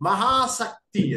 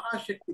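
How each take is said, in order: First: The middle consonant is an 's' sound. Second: The middle consonant is a 'sh' sound. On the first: One having great attachment. The speaker calls it right. "మహాశక్తి అది" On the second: Great power. The speaker calls it wrong. "కానీ అది మహాశక్తి కాదు"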